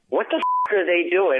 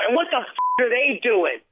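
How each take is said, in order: First: It is said plainly, with restrained emotion. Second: It is said with heavy, exaggerated emotion. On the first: The audience is left to feel the emotion. The speaker calls it right. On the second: The emotion is spelled out for the audience. The speaker calls it wrong.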